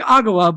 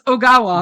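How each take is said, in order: First: The name begins with an 'ah' vowel. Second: The name begins with an 'oh' vowel. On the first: The speaker calls it wrong. "who I kept saying Agawa" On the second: The speaker calls it right. "but it is Ogawa"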